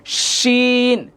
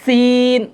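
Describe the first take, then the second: First: শিন with a sh made further back, off the teeth; higher, very drawn-out শিন; inner-mouth shin. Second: সিন with a sharp s, tongue touching the teeth; louder, higher, long-held সিন; dental sin. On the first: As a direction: hold a hushing sh in শিন, tongue away from the teeth. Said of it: "একটু ভিতর থেকে উচ্চারণ হবে". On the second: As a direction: hold the s in সিন at the teeth, not sh. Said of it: "জিহ্বাটা দাঁতের সাথে লাগবে". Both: Shown as a demonstration.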